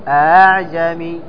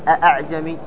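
First: The second hamza is softened toward a long a. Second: The second hamza is pronounced fully and distinctly. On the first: The speaker calls it right. "وإنما تقول أعجمي، تجعلها خفيفة" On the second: The speaker calls it wrong. "فلا تقول أعجمي"

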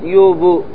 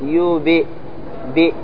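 First: The echoing b leans toward an a vowel. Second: The echoing b leans toward an i vowel. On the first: The speaker calls it wrong. "أنا ما قلت يوب" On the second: The speaker calls it right. "على حسب الكسرة تقول يوب"

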